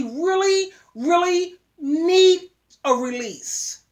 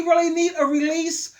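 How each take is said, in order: First: Need a release, stretched very slowly; drawn out. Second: Said in the usual way. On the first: Real, not acted. Advising young men, slowly drawn out. Repeats phrase, first drawn out.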